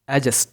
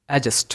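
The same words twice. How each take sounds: First: The d sound is left silent. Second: The same.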